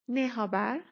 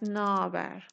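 First: Two separate words, with every vowel pronounced. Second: One word, with the e sound dropped.

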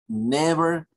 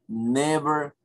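No difference in how they are said.

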